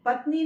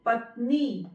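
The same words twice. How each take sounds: First: पत्नी with a short final i; wrong pronunciation. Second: पत्नी ending on a long "nee"; long final vowel. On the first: Teacher shows wrong spelling aloud, short-ended पत्नी. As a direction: clip the ending of पत्नी. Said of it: "पत्नी नहीं लिखेंगे". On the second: Teacher models correct word, long ee closing पत्नी. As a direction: lean on the नी of पत्नी. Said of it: "ई की मात्रा लगाएंगे ना पर". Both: Shown as a demonstration.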